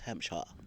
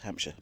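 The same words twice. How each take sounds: First: It is said in a posh, upper-class accent. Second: It is said in an ordinary local accent. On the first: The speaker is very upper class. "If you're very posh, it's Hampshire" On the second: The speaker is a local resident. "those of us that live there, it's just Hampshire"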